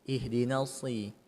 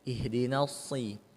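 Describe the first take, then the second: The two takes are said the same way.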